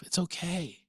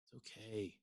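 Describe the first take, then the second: First: Reassuring. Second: Much softer, letting it go; a quiet calm it's okay. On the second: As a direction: breathe it out gently. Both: Real, not acted. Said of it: "And I just laugh".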